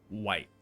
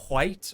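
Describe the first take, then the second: First: A plain w starts the word, no h. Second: A breathy h sound comes before the w.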